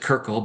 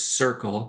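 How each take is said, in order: First: The name begins with a hard K sound. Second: The name begins with an S sound. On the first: The speaker calls it wrong. "a lot of people pronounce it Kirkle" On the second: The speaker calls it right. "but it is Circle"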